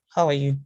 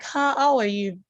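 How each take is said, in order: First: Subdued, lower greeting, put out; upset greeting. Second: Higher-pitched, excited hello; excited greeting. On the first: Speaker showing a changing tone of voice, upset greeting. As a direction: greet someone who has upset you, pitch kept down. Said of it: "if somebody else upsets me". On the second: Speaker showing a changing tone of voice, excited greeting. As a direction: greet someone with acted excitement, pitch lifted. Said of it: "if I am excited". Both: Shown as a demonstration.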